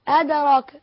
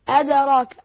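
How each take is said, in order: No difference in how they are said.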